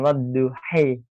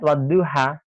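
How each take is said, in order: First: The final vowel is tilted toward an 'e' sound. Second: The final vowel is an open 'a' sound. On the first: "dengan bacaan imalah, yakni e secara sempurna" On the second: "setiap lafaz wadduha"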